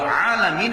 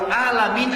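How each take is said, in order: First: It begins with a deep throat ain sound. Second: It begins with a plain glottal stop. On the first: It means the universe. The speaker calls it right. "artinya alam semesta" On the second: It means pain or the sick. The speaker calls it wrong. "Pakai hamzah"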